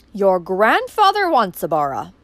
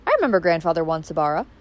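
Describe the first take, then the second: First: Slow, louder, cornered answer; desperate. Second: Said in the usual way. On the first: Acted. Uncle cornered by Valancy's question, desperately. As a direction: blurt the name out in desperation. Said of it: "he said desperately".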